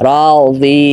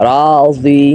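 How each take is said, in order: No difference in how they are said.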